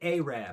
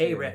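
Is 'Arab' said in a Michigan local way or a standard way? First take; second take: Michigan; standard. First: The word is said in a Michigan local way. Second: The word is said in a standard way.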